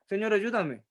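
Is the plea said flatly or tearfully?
flatly. It is said flatly, without pleading emotion.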